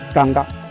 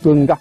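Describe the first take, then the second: First: The first vowel is an open 'a' sound. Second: The first vowel is an 'e' sound. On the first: This is how one group of ethnic groups says the name. "les Yobokolo par exemple, qui appelle l'hétérotype Kanga" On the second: This is how the other group of ethnic groups says the name. "alors que chez les, les sons, c'est Kenga"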